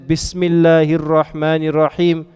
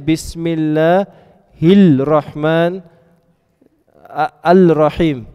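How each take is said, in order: First: The L of the article is silent and assimilated. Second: The L of the article is clearly pronounced. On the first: The speaker calls it right. "I'm just not saying the lam" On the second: The speaker calls it wrong. "you don't say"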